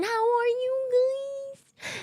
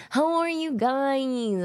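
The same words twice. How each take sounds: First: Very high, slow, stretched squeal; squealed greeting. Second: Slow, higher-pitched, sliding down at the end; drawn-out greeting. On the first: Streamer greeting chat, drawn-out silly squeal. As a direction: let the question climb into a silly squeak. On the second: Streamer asking chat how they are, drawn-out greeting. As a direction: stretch each word in a silly greeting. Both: Pretend.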